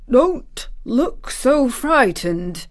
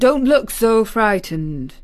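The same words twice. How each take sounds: First: Slow, higher-pitched exclamation; exclaimed. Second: Mildly worried man. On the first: Guardian startled by her anxious face, exclaiming slowly. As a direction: exclaim it, drawing out each word. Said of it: "he exclaimed". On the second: Guardian reassuring a scared child, mildly worried. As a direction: say it with a touch of concern. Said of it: "he said in a worried voice". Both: A narrator's reading.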